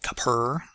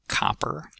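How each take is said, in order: First: The stress is on the second syllable. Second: The stress is on the first syllable. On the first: The speaker calls it wrong. "It's not copper or something like that" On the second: The speaker calls it right. "Stress on the first syllable"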